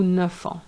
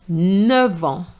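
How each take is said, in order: First: The f of neuf is said as f. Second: The f of neuf is said as v. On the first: The speaker calls it wrong. "as opposed to" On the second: The speaker calls it right. "the F is going to change into a V sound"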